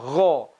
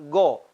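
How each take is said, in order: First: The 'gh' sound flows out with continuous friction. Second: The 'gh' sound is a hard 'g' stop. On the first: The speaker calls it right. "Harusnya dibaca gho" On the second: The speaker calls it wrong. "seringkali kesalahan go"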